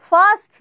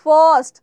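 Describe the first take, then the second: First: ফার্স্ট said with a flat open "a", "fast"; the common wrong way, open-mouthed "fast"; ফার্স্ট as "fast", the mistake; wrong pronunciation. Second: ফার্স্ট with rounded lips, "fɔrst", firm and louder; ফার্স্ট said "fost", lips forward; correct pronunciation. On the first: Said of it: "না". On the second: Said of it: "ঠোঁটটাকে একটু বাইরে করে". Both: Shown as a demonstration.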